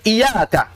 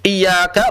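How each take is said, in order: First: "Iyyaka" as i-yaka, single light y, higher; missing tasydid. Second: "Iyyaka" with the y pressed and held; doubled y. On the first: Teacher shows the wrong reading, "Iyyaka" without doubled y. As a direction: lift "Iyyaka" and leave the y unheld. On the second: Teacher models the right reading, "Iyyaka" with tasydid. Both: Shown as a demonstration.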